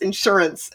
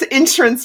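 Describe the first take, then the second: First: The word has a standard, non-Texas pronunciation. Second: The word has a Texas pronunciation.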